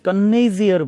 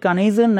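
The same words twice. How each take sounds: First: The n sound is held long and doubled. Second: The n sound is short and single. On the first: "double করে উচ্চারণ করি" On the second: "কানেজিয়ার না বলে"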